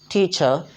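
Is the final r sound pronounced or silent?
silent. The final r is left silent. "हम British accent के मुताबिक ये कहेंगे टीचर"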